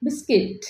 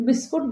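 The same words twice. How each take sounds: First: "বিস্কিট" as bis-kit; correct English pronunciation. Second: "বিস্কুট" as bis-kut, with u; incorrect English pronunciation. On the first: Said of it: "ইংলিশে correct pronunciation হবে". ("বিস্কিট" শুদ্ধ ইংরেজি উচ্চারণ) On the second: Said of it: "but not correct pronunciation". ("বিস্কুট" ভুল ইংরেজি উচ্চারণ) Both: Shown as a demonstration.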